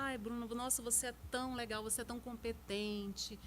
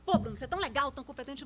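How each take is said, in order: First: Sincere compliment. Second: Punchy opening, dropping away on the praise; critical, ironic compliment. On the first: Praising a colleague to show how tone charms, soft and sincere. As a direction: say it gently, as if you mean it. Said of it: "pela forma que você fala". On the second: Same compliment to a colleague, said as veiled criticism. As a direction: praise that could pass for criticism. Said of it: "Você tá me criticando ou você tá falando a verdade". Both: Shown as a demonstration.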